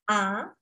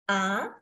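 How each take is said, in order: First: The pitch rises upward. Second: The pitch rises upward.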